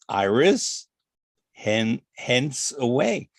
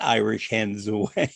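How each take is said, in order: First: The s starts hence, sounding like Iris hence. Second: The s joins Iris, sounding like Irish hens. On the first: The speaker calls it right. "it's Iris Hen, Hence Away" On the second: The speaker calls it wrong. "it's not Irish Hens Away"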